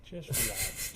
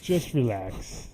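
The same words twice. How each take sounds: First: Said in the usual way. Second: Slow, laughing louder reassurance. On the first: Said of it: "repeated calming line". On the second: Shown as a demonstration. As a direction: draw it out through a laugh. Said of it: "repeated with a laugh".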